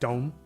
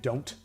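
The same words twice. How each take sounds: First: The final T sound is dropped. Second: The final T sound is clearly pronounced. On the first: "we say more like don't" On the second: "I just enunciated it"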